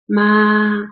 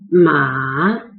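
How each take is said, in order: First: The pitch stays high and level throughout. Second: The pitch dips low and then rises. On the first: Mother. "ma has the highest pitch. ... ma is a flat tone. There's no change when you speak it" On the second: Horse. "There's a transition, lower it and rise it"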